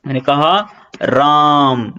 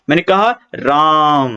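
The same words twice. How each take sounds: First: राम with its आ held very long and slow; singing out राम, slow and stretched; prolonged vowel. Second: Said in the usual way. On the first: Shown as a demonstration. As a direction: draw out राम like a call. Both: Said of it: "इस तरह से".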